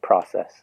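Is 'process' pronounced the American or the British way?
American. It is said with an American vowel sound. This is the pronunciation the listeners expect. "instead of process"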